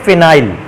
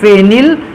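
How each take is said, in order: First: It is said as 'fi-nile', long final diphthong. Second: It is said as 'feh-nil', short final vowel. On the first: "इसी को कहते हैं फिनाइल"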